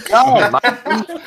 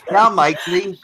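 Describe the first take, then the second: First: Hammed-up fake British accent, drawn out slowly and pitched higher, laughing through it; a laughing, botched British accent that drifts toward Australian; bad British accent. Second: Second go at the fake British accent, a little less high, still laughing; a mock British accent with a giggle underneath; bad British accent. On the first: On a dare from the co-hosts, a bad British accent. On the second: Trying the British accent again for friends, still botched. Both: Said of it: "Can you do a British accent?".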